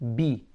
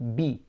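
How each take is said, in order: First: The vowel after b is a clear ee. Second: The same.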